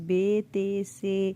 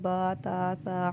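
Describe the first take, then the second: First: The letters end in an Urdu-style 'e' vowel. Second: The letters end in an Arabic-style 'a' vowel. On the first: The speaker calls it wrong. "Urdu तलफ़ुज़ से परहेज़ करना है, यानी बे ते से ... हरगिज़ ना पढ़ें" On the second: The speaker calls it right. "बल्कि बा ता ता हा खा तो ज़ुआ पढ़ें"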